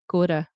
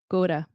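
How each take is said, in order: First: The 'to' begins with a D-like sound. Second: The same.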